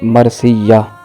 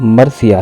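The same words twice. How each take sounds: First: The 'y' sound is doubled. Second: The 'y' sound is single. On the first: The speaker calls it wrong. "लफ्ज़ बोलते हैं" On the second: The speaker calls it right. "या पर तशदीद नहीं है"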